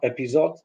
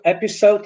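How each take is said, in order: First: The middle consonant is a buzzing z. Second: The middle consonant is a hissing s. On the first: The speaker calls it wrong. "not episode" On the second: The speaker calls it right. "we should use S instead of Z. So episode"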